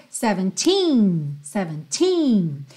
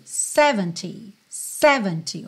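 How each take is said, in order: First: Put-on "seventeen" stressed on a long TEEN; final-syllable stress. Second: "seventy" stressed on SEV; first-syllable stress. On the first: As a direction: lean on the end of "seventeen". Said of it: "Já o dezessete seria". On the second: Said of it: "o sé é mais forte". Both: Shown as a demonstration.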